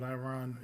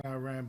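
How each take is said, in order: First: Quieter "Iran" with an open AH; Iran ending in "rahn". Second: "Iran" with a short A, rhyming with "man"; Iran ending in "ran". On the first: Host switching from his habit, "Iran" said eye-RAHN. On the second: Host showing his habitual way, "Iran" said eye-RAN. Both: Shown as a demonstration. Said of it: "I have a tendency of saying".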